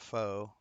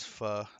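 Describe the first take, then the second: First: The vowel is long, like 'foe'. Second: The vowel is short, like 'fuh'. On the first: The speaker calls it wrong. "not pho" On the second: The speaker calls it right. "It is pho"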